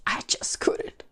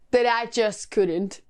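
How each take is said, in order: First: Whispered, giving up on the show; defeated whisper. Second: Said in the usual way. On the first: Real, not acted. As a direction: breathe it out, soft and unvoiced. Repeats phrase, second whispered.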